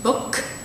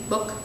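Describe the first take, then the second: First: The final k is released with a puff of air. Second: The final k is released without a puff of air. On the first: "one with it fully pronounced" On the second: "kind of in between, ... with a released but unaspirated stop"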